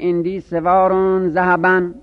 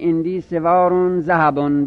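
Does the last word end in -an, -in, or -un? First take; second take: an; un. First: The last word ends with the vowel -an. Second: The last word ends with the vowel -un. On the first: The last word is a specifier. "به نصب بخونید" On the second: The last word stands in apposition to the noun before it. "به رفع هم بخونید"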